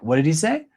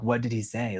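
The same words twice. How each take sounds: First: Bright, lifted surprise; "What did he say?" with "say" rising high and light; wrong take. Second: Said in the usual way. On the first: Shown as a demonstration. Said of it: "you wouldn't be like". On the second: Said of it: "You would say".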